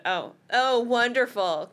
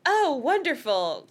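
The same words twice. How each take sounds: First: Lightly moaned "Oh, oh, wonderful"; understated sarcastic dismay; half-hearted moan, close to plain; mild moan. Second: A touch of a drawn-out groan; sarcastic dismay, dragged slowly; moaning "wonderful", slow and a bit louder; mild moan. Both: A narrator's reading. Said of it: "Cassie moaned".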